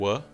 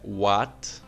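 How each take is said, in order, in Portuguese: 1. A vogal é pronunciada mais para trás na boca. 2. A vogal é pronunciada mais para frente na boca. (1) "é um A um pouquinho para trás" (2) "nota que não é what"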